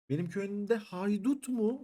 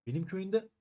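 First: High, slow, stretched outrage at "benim köyümde haydut mu"; who dares raid my village; shocked disbelief. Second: Said in the usual way. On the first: Real, not acted. Finds bandits in his village.

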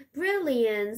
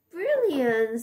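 First: Said in the usual way. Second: Louder, brighter cheer; excited. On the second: Shown as a demonstration. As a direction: say it with delight.

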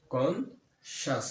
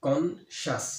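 First: conscious said very slowly as two syllables, কন-শাস; split into syllables. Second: Said in the usual way. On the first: Shown as a demonstration. Teacher showing students the two syllables of conscious, very slow. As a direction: stretch conscious so both lip movements are heard. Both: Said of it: "আমার ঠোঁট কিন্তু দুইবার লড়তেছে".

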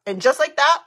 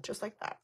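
First: "And just like that" proclaimed loud and bright; loud announce. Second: Breathy whispered "just like that". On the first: Revealing her bare face to viewers, loud triumphant "And just like that". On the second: Before the makeup reveal, she whispers "just like that". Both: Shown as a demonstration.

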